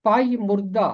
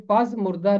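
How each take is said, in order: First: پائی مردہ said with the zh sound, pazh-murda; correct pronunciation. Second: پز مردہ said with a z sound, paz-murda; wrong pronunciation. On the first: Teacher stressing the right reading of پائی مردہ, with zh. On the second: Teacher quoting the wrong reading پز مردہ, with z. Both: Shown as a demonstration. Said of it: "یہ پز مردہ نہیں ہے".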